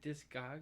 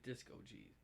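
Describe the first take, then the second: First: It ends in the syllable 'cogs'. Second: It ends with the letter name 'G'. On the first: "is it Discogs" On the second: "or is it Disco G's?"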